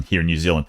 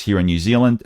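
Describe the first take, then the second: First: Quick, badly faked New Zealand accent; mock Kiwi accent, tossed off quickly; dodgy New Zealand accent. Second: Said in the usual way. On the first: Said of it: "that's really a dodgy New Zealand accent". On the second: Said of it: "correction, here in New Zealand".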